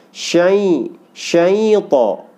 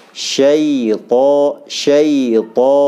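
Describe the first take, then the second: First: Syaito pushed through the nose, higher; nasal mistake. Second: Syaito with ya in mid-tongue, not nasal; correct syaito. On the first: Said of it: "dari rongga hidung". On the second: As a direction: say syaito clean, no nasal push. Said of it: "seperti itu". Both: Shown as a demonstration.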